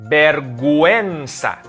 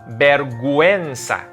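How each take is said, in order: No difference in how they are said.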